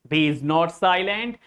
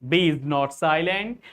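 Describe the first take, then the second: Both takes have the same delivery.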